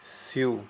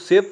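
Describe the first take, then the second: First: The word ends with a 'yoo' sound. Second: The word ends with a 'v' sound. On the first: The speaker calls it right. "सही pronunciation" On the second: The speaker calls it wrong. "ये गलत pronunciation होगा"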